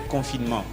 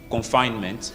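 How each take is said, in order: First: The word is pronounced with French sounds. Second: The word is pronounced with English sounds. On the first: "les mots qu'on parle en français" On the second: "Donc en anglais, on dit confinement"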